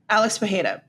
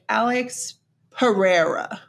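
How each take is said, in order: First: The name is read with Brazilian Portuguese sounds. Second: The name is read with English sounds. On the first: "the Brazilian way to pronounce that is Pajeda" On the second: "if you're reading it with English eyes"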